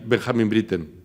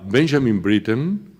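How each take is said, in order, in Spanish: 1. El nombre se pronuncia con acento alemán. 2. El nombre se pronuncia con acento inglés. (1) "si sabía más alemán que inglés" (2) "si ese locutor sabía más inglés que alemán"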